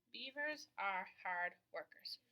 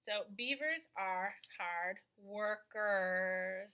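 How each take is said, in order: First: Said in the usual way. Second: Slow dictation. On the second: Shown as a demonstration.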